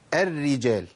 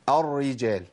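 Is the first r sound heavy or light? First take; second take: light; heavy. First: The first r is light and thin. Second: The first r is heavy and thick. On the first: The speaker calls it right. "ده الصواب" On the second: The speaker calls it wrong. "انت فخمت كده الراء الاولى"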